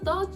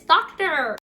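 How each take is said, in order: First: It is said in a South African accent. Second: It is said in an American accent. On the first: The speaker calls it wrong. "I was like, yeah, so it's a doctor" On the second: The speaker calls it right. "No, teacher, it's doctor"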